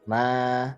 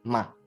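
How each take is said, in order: First: The pitch rises upward from mid to high. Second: It is short and light with no set pitch. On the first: "nada kedua itu ada naik ke atas, dia rising" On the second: "itu nggak pakai nada ya"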